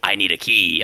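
It is said imitating Caleb's voice.

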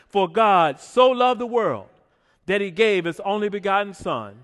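It is read with strong, heartfelt conviction. "say it like we really mean it"

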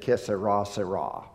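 It is said with an American English accent.

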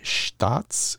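It is said in a German accent.

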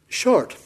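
It is said in a Scottish accent. "Not if you're Scottish"

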